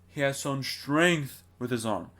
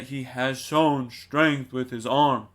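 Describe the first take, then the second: First: "strength" as the peak of the phrase, said slowly; stress on strength. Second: Every syllable of "He has shown strength with his arm" hit equally, slow and heavy; every syllable stressed. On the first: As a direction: lean on "strength" and let the rest fall away. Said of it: "amplify the strong syllables". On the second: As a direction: punch each word evenly, the wrong way. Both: Shown as a demonstration.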